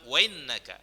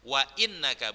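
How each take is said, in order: First: Wa runs into innaka with no glottal stop. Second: A glottal stop separates wa from innaka. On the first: The speaker calls it wrong. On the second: The speaker calls it right.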